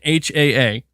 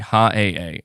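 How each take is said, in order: First: Each letter is named on its own. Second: The first letter is run into a syllable. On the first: The speaker calls it right. "We have confirmation" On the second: The speaker calls it wrong. "I still said that wrong"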